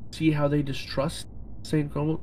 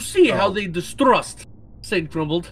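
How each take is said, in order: First: It is said in the speaker's ordinary accent. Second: It is said in a put-on Russian accent.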